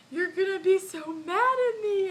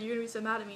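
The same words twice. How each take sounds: First: High, loud imitated wail; re-enacted tearful cry, pitched way up; mock bawling. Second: Said in the usual way. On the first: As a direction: wail it like a bawling kid confessing, hammed-up. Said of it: "And I just started bawling". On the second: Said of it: "well, I said".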